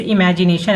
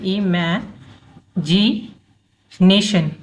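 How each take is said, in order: First: Said in the usual way. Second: "imagination" broken slowly into pieces, with long gaps between; syllable by syllable. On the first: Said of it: "जैसे imagination अगर हम लिखते हैं". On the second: Shown as a demonstration. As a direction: say "imagination" very slowly, pausing after each chunk, i-mae, ji, nation. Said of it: "इसको break करके पढ़ेंगे". ("Imagination" को धीरे-धीरे टुकड़ों में तोड़कर बोलें)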